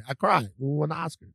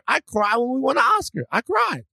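First: Said in the usual way. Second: Higher, overcome gushing voice; mock tearful winner. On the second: Showing friend the easy example, higher gush. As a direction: play the overjoyed Oscar winner. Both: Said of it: "that's your answer".

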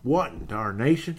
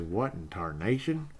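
First: Fuller, punchier mock Western exclamation; old Western character. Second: Put-on slow, understated old Western exclamation; lightly voiced, drawn-out cowboy bafflement; old Western character. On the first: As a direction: lightly imitate a baffled old Western character. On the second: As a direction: say it slowly, softly mimicking an old Western. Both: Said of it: "old Western shows there".

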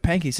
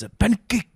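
First: Said in the usual way. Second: High mock Japanese accent on "a pancake". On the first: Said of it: "it's a pancake". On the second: Shown as a demonstration. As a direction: say "a pancake" with Japanese syllables, pitched up. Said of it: "with a Japanese accent".

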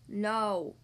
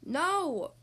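First: Low, weary tortoise groan. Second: Understated cross refusal; mildly angry. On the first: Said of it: "groaned Tortoise". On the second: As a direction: refuse with a touch of anger. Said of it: "Tortoise said angrily". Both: A narrator's reading.

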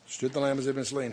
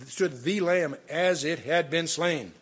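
First: Said in the usual way. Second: Slow, weighty "the", said as "thee"; stress on THE. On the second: Shown as a demonstration. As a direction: spell out each word slowly, stressing "the" before "Lamb". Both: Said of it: "not a lamb".

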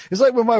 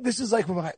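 First: Said in the usual way. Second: Softer, voice suddenly dropped; hushed, near whisper. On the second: Real, not acted. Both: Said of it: "I don't know why I'm whispering".

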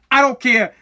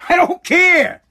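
First: Said in the usual way. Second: I don't care shouted high and loud; angry shout. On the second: Real, not acted. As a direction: bark it out, fed up. Escalating angry repetition.

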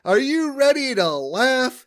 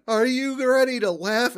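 First: Loud and high, a keen comic opening his set; eager comic shout. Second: High, a bit louder, asking the crowd again; repeated comic call. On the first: Homer to the crowd, a loud eager shout. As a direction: belt it out like an eager stand-up. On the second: Homer repeating it to the silent crowd, raised voice. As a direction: try the opener a second time. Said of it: "says again". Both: Retold or imitated.

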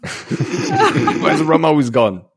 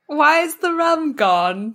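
First: Slow, higher laughing pirate drawl; Jack Sparrow impression. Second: Put-on slow, higher drunken pirate whine; Jack Sparrow impression. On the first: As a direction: laugh through a tipsy pirate line. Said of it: "corrects the quote". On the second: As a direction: slur it like a tipsy pirate. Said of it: "Pirates quote".

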